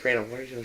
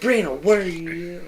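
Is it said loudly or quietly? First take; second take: quietly; loudly. First: It is said quietly. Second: It is said loudly.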